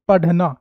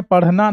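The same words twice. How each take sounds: First: "पढ़ना" as padh-na, tongue stopped hard; slow "पढ़ना" with a firm dh; wrong hard ढ. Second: "पढ़ना" as parh-na, tongue flapped; correct flapped ढ़. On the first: Teacher rejecting the misreading for pupils, "पढ़ना" with hard dh. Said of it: "ना के पढ़ना". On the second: Teacher giving pupils the correct word, "पढ़ना" with flapped rh. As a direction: say "पढ़ना" with a light breathy flap. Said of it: "तो सही लफ्ज़ है पढ़ना". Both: Shown as a demonstration.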